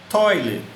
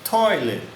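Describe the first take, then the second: Both takes have the same delivery.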